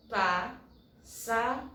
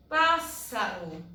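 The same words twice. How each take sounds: First: "pássaro" split into pás, sa, ro with pauses; syllable by syllable. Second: Said in the usual way. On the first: Shown as a demonstration. Teacher showing that the word has three syllables, syllable by syllable. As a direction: say "pássaro" slowly, one syllable at a time. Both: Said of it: "Três sílabas".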